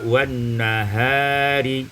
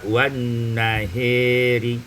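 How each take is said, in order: First: The vowel after h is an open a. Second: The vowel after h leans toward e.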